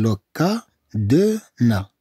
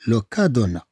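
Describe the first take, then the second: First: "لو كا دو نا" in slow separate syllables; slow teacher's sounding-out. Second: Said in the usual way. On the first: Shown as a demonstration. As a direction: pause between each syllable. Slow take for learners.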